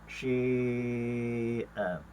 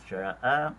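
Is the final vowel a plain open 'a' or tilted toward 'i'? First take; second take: toward i; open a. First: The vowel is tilted toward an 'i' sound. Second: The vowel is a plain open 'a'. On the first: "secara imalah sya'a kepada syi'a" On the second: "Secara tahqiqnya"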